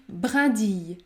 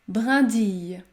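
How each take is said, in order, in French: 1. La terminaison se prononce avec un son 'y'. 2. La terminaison se prononce avec un son 'y'.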